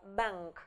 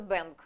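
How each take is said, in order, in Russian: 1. Звук n — носовой звук ng. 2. Звук n — обычный русский звук n. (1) "а bank. Через нос у нас воздух проходит" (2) "Не просто bank, да, как по-русски"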